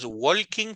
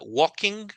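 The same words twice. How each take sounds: First: The L sound is pronounced in the word. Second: The L sound is silent in the word. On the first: The speaker calls it wrong. "No es walking porque la L no existe" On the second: The speaker calls it right. "sería walking home"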